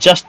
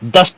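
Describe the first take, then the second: First: The syllable begins with a 'j' sound. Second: The syllable begins with a 'd' sound. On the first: The speaker calls it wrong. "जस्त नहीं" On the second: The speaker calls it right. "दस्त शुद्ध शब्द होता है"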